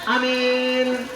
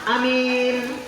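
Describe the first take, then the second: Both takes have the same delivery.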